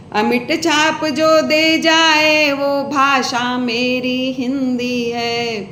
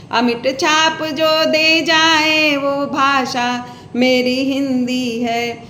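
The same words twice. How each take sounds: The two takes are said the same way.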